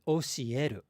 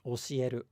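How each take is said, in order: First: The pitch rises and falls on one syllable. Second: The pitch stays level across the word. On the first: The speaker calls it wrong. "it's not 教える" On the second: The speaker calls it right. "It's just 教える, 教える. It's kind of flat"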